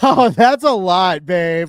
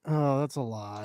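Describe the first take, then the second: First: It sounds delighted and pleased. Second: It sounds disapproving and put off.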